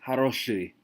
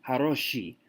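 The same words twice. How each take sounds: First: Haroshui with a hard sh and a dark uy vowel; hard sh ending. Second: Haroshi ending in a soft, clear ee; wrong soft ending. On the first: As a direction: end "haroshui" on uy, not ee. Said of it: "we say haroshui". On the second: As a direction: say "haroshi" with a plain ee after the sh. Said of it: "we don't say haroshi". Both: Shown as a demonstration.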